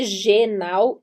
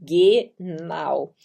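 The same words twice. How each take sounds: First: It starts with a soft zh sound. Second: It starts with a hard g sound. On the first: The speaker calls it wrong. "genau não é genau" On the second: The speaker calls it right. "e sim genau"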